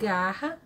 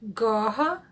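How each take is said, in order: First: The A vowel is open and bright. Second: The A vowel is dark, like in car. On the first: The speaker calls it right. "this open A vowel" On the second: The speaker calls it wrong. "they have car vowel instead"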